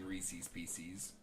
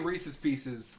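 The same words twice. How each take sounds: First: The name is said fully, in a careful way. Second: The name is said loosely, in a casual way. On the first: "if you asked me to pronounce it" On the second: "like, just in casual"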